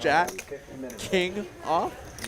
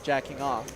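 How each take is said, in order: First: The words are said slowly and kept apart. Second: The words run together quickly as one phrase. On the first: It clearly names the cards. The speaker calls it right. "making it explicitly clear" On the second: It sounds like a rude phrase. The speaker calls it wrong. "if I just say it quickly"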